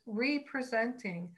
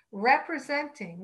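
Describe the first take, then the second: First: "representing" split as "re-presenting", long "ree" at the start; "representing" with a clear "ree" prefix. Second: Said in the usual way. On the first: Shown as a demonstration. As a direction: say "representing" as "ree-presenting", stressing the first part. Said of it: "or I like to say sometimes". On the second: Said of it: "or I like to say sometimes representing".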